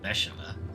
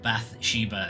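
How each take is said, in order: First: The name is pronounced unlike its spelling. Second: The name is pronounced as it is spelled. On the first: The speaker calls it right. "whereas it's pronounced" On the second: The speaker calls it wrong. "is how everyone else is pronouncing this one"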